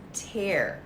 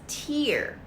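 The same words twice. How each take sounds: First: The vowel sounds like the one in 'air'. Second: The vowel sounds like the one in 'ear'. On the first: Damage from use. "But here it's pronounced as tear, wear and tear" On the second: Drops of water from the eyes. "as in tears on your face"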